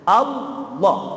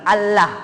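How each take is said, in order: First: The L is pronounced heavy and thick. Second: The L is pronounced light and thin. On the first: The speaker calls it right. "Allah tebel" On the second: The speaker calls it wrong. "Bukan tarkik, bukan Allah"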